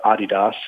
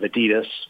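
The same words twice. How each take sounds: First: The brand name has a continental European pronunciation. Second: The brand name has an American pronunciation.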